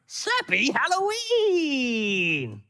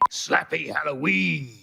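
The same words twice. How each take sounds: First: It is said in a funny way. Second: It is said in a plain way.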